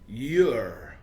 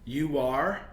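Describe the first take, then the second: First: The words are joined into one syllable. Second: Both words are said in full.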